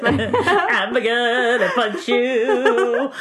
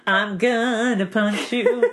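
First: Laughing threat. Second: Said in the usual way. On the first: Real, not acted.

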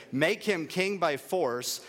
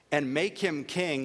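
First: "make him king by force" slowed, stress on "him" and "force"; "him" and "force" hit slowly and firmly; slow emphasis. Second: Said in the usual way. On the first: Shown as a demonstration. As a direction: lean into "by force".

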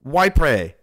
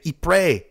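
First: "Ypres" said as "why-pray"; "Ypres" pronounced why-pray; Ypres as /waɪpreɪ/. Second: "Ypres" said slowly as "ee-pray"; "Ypres" pronounced ee-pray; Ypres as /ipreɪ/. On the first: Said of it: "Some people would say". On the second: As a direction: say "Ypres" like "ee-pray", French-style. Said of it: "Some people would say Ypres". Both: Shown as a demonstration.

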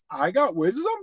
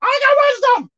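First: Softer, lower muttered insistence; half to himself, a low protest; quiet protest. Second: Much higher, louder indignant insistence; emphatic protest. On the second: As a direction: push back hard, indignant. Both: Retold or imitated. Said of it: "I'm like".

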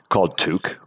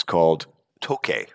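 First: Toque said as one syllable, "took"; mispronounced name. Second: Toque said in two syllables, "toe-KAY"; correct French name. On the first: Retold or imitated. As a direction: say Toque like "took", rhyming with Luke. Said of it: "Turns out that the restaurant is called Toque". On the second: Shown as a demonstration. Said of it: "toque, uh, it's, it's T O Q U E with an accent".

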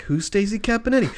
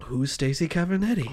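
First: Baffled reply. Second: Blank puzzlement. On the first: Bartender puzzled by frantic question. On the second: Druggist blankly replies after pause. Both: Acted.

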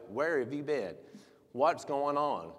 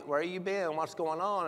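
First: Slow, weighty mock scolding; mock berating. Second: Higher, lightly imitated friendly check-in; beseeching. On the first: Pastor showing how not to greet those astray, mock berating. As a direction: demand an explanation, imitating a scolding. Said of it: "and berate them". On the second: Pastor imitating a check-in on absent member, gently beseeching. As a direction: ask after them kindly, without scolding. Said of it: "He's beseeching you".

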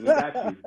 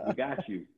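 First: Excited. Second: Host laughing as he reassures the guest. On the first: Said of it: "repeats reassurance, high and bright". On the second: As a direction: let the reassurance melt into a laugh. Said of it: "repeat dissolves into laughter". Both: Real, not acted.

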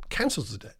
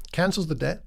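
First: Repeated, much softer and lower; soft echo. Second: Said in the usual way. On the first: Shown as a demonstration. Preacher repeating the master's pardon, soft echo. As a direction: let it fall away softly.

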